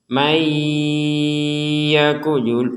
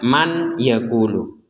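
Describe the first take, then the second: First: The n merges nasally into the following y. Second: The n is pronounced clearly before the y. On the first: The speaker calls it right. "dibaca dengan gunnah ... nunnya ini dimasukkan ke huruf ya menjadi may" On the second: The speaker calls it wrong. "jangan dibaca man yaqulu"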